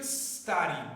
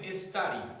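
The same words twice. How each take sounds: First: The word starts directly with the s sound. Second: An extra e vowel is added before the s. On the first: The speaker calls it right. "empezamos de la pronunciación desde la S" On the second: The speaker calls it wrong. "hay gente que le pone como una E a esta pronunciación"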